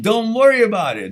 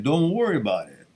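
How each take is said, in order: First: Louder, higher, laughing mock Italian accent. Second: Said in the usual way. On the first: Host jokingly tells a viewer not to worry, in mock Italian accent. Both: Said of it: "as the Italians say".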